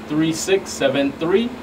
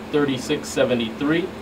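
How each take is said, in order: Both takes have the same delivery.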